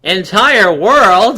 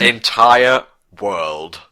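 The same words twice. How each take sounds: First: Slow, drawn-out questioning echo; mock disbelief. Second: ENTIRE stretched and slow; slow emphatic. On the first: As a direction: ask it back slowly in disbelief. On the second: Pretend. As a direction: lean hard on ENTIRE, slowly.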